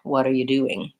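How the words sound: The stress falls on doing. A plain question about the listener's activity. "the main stress is on do"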